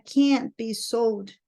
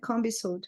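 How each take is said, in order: First: It is said with an American accent. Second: It is said with a British accent.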